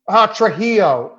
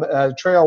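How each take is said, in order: First: The middle consonant sounds like an English H. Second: The middle consonant sounds like an English J. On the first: The speaker calls it right. "pronounce the J like an H" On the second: The speaker calls it wrong. "I messed it up"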